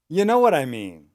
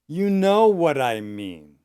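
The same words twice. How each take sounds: First: The phrase is spoken quickly and run together. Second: The phrase is spoken at a medium pace. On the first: "and fast"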